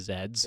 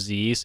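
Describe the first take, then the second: First: The letter is said as British 'zed'. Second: The letter is said as American 'zee'.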